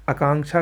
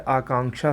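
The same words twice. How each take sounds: First: आकांक्षा opening on short "a"; wrong pronunciation. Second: आकांक्षा opening on long "aa"; correct pronunciation. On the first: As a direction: shorten the first vowel of आकांक्षा. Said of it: "गलत है". (आकांक्षा को "अकांक्षा" बोलें) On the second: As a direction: hold the first vowel of आकांक्षा. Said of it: "सही है". (आकांक्षा में लंबा "आ") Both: Shown as a demonstration.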